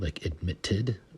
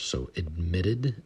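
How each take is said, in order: First: The middle consonants sound like a crisp T. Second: The middle consonants sound like a soft D. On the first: The speaker calls it wrong. "we do not pronounce the T's like a T" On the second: The speaker calls it right. "more like D's"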